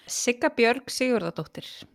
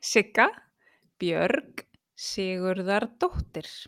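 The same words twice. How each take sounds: First: The name is said at normal speed. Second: The name is said more slowly.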